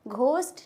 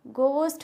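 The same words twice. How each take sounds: First: An h sound follows the g. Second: No h sound follows the g. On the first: The speaker calls it wrong. "घोस्ट नहीं होते हैं" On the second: The speaker calls it right. "एच होता है इसमें silent"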